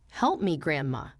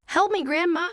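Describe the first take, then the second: First: A hushed, tearful "Help me, Grandma"; crying plea. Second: Higher and louder desperate plea; pleading cry. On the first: A narrator's reading. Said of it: "Emma, crying". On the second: Acted. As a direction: beg her grandma urgently. Child begging grandma for help.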